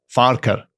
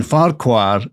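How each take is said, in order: First: "Farquhar" as "FAR-ker"; Scottish pronunciation. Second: "Farquhar" with a full "kwar" ending; usual mispronunciation. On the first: Podcaster corrects the name for co-host, "Farquhar" said "FAR-ker". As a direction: say "Farquhar" with a reduced "ker" ending, no W. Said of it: "the Scottish pronunciation is Farquhar". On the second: Podcaster shows co-host the common mistake, "Farquhar" ending in "kwar". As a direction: say "Farquhar" as spelt, "FAR-kwar". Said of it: "we've all been saying Farquhar wrong". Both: Shown as a demonstration.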